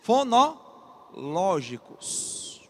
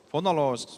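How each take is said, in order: First: Very slow, split into syllable groups; drawn-out key term. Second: Said in the usual way. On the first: Shown as a demonstration. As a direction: stretch "Fonológicos" out for the class. Teacher stretches key term for emphasis.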